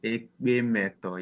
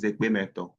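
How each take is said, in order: First: Ekpe Meto said slowly, syllable by syllable; slow model answer. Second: Said in the usual way. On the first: Shown as a demonstration. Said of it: "What's happiness in Ekpe language?". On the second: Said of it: "one we have on the list is happiness".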